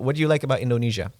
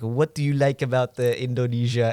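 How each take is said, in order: First: It is spoken in the speaker's plain accent. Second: It is spoken in a put-on French accent.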